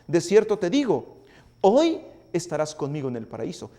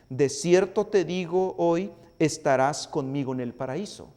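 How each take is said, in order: First: The pause falls right before the word hoy. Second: The pause falls right after the word hoy. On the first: Today is when they will be in paradise. The speaker calls it wrong. "alguno puede decir" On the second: Today is when the promise is spoken. The speaker calls it right. "lo podríamos leer de esta manera"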